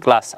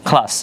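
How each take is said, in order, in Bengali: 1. প্রথম k ধ্বনিটি অল্পপ্রাণ, কোনো শ্বাস ছাড়া। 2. প্রথম k ধ্বনিতে জোরালো শ্বাস আছে। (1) "আমরা বলি কি ক্লাস" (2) "এটা শুদ্ধ উচ্চারণ হচ্ছে ক্লাস"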